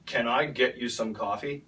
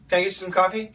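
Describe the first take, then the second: First: Each word is said slowly and clearly. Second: The words are fast and run together. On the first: "We should say, ... That's beautiful. That's perfect" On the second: "It's really fast"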